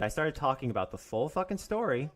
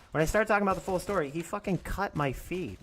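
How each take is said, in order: First: Said in the usual way. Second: Heated rush. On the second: Real, not acted. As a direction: blurt it out, worked up. Repeats the line, heated.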